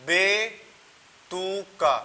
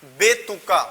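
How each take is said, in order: First: बेतुका stretched very slowly, each syllable held; slow drawn-out word. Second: Said in the usual way. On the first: Shown as a demonstration. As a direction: draw out बेतुका syllable by syllable for the class. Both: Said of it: "जैसे मैंने एक word बोला".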